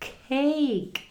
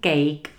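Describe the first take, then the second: First: The k is said with a puff of air. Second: The k is said without a puff of air. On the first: The speaker calls it right. "Foukáme p, t, k ... ale cake" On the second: The speaker calls it wrong. "koláč není cake"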